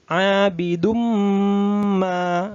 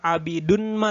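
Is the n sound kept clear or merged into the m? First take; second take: merged m; clear n. First: The n merges into a nasalized, held m. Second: A clear n sound is heard before ma. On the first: The speaker calls it right. "bunyi n dimasukkan ke bunyi m" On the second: The speaker calls it wrong. "Bukan abidun ma"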